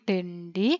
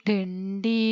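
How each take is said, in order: Both takes have the same delivery.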